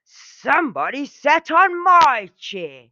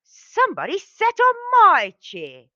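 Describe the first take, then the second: First: Loud, higher angry bear roar. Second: Much higher, louder shrieking bear voice; Mommy Bear roar. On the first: Daddy Bear finds his chair used, roaring angrily. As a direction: bellow it like a furious father bear. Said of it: "Daddy Bear roared angrily". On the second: Mommy Bear finds her chair used, roaring high and loud. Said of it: "Mommy Bear roared". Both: A narrator's reading.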